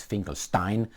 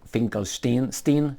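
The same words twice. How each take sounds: First: Said in the usual way. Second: Finkelstein with the last syllable said as "steen"; alternative pronunciation. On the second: Shown as a demonstration. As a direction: say Finkelstein ending in STEEN, rhyming with "seen". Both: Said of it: "however you wanna pronounce it".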